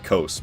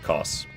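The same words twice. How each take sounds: First: The vowel does not rhyme with boss. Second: The vowel rhymes with boss. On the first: The speaker calls it wrong. "I was gonna say Kos" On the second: The speaker calls it right. "it's like Kos. Kos like boss"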